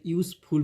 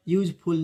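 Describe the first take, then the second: First: यूजफुल with a clear "s", "yoos-ful"; correct pronunciation. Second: यूजफुल with a "j" sound, "yooj-ful"; wrong pronunciation. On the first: Teacher gives students the right यूजफुल, "yoos-ful". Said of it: "यूजफुल पढ़ते हैं". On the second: Teacher warns students against यूजफुल said "yooj-ful". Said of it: "यूजफुल नहीं पढ़ते". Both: Shown as a demonstration.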